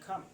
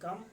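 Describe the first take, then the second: First: The k sound has a puff of air. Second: The k sound has no puff of air. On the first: This is how native speakers say it. "क को ख" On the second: This is how Indian speakers say it. "हम बोलते हैं कम"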